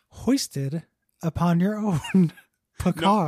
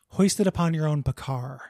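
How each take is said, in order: First: It is said laughing, pleased with the joke. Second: It is said plainly, without laughing. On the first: The speaker calls it wrong. "you got to say it without laughing at how fucking clever your own joke is" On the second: The speaker calls it right. "There we go"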